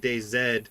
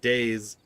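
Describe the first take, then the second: First: The name ends with the letter name zed. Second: The name ends in a plain s sound. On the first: "you're probably Canadian if you're saying that" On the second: "If you're if you pronounce it Days"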